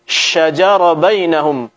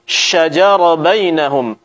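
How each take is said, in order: First: The sh before j is firm and fully hissed. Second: The sh before j is firm and fully hissed.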